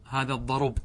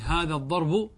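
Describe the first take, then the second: First: "الضرب" said ad-darub, ending on bare b; pause by transfer. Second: "الضرب" said ad-darbu with final u; original case ending. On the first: Teacher gives the paused form, "الضرب" said ad-darub. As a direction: shift the u onto r in "الضرب": ad-darub. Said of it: "الوقف بالنقل". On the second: Teacher gives the form before pausing, "الضرب" said ad-darbu. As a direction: sound the nominative u on "الضرب": ad-darbu. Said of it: "هذا أصله". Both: Shown as a demonstration.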